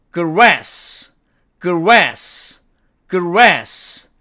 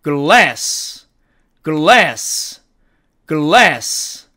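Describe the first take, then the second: First: Grass with a curled r, tongue touching nothing; grass, American r, not an l. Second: Glass with a clear l, tongue on the gum ridge; glass, never a rolled r; glass spoken with a tongue-touching l. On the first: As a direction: grass with a rounded r. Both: Shown as a demonstration. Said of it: "제가 한번 읽어볼게요".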